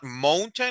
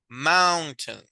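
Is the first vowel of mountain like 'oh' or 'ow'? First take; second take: oh; ow. First: The first vowel is a closed 'oh' sound. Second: The first vowel is an open 'ow' sound. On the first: The speaker calls it wrong. "Is not mountain" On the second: The speaker calls it right. "is mao, mountain"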